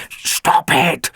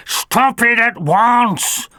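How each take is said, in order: First: Hissed sharp order; a clipped mock command. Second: Higher, slow, louder order; mild stern command; firm command. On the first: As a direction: cut the howling off sharply. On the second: Acted. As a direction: bring the howling to a stop. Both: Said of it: "ordered Fix-It".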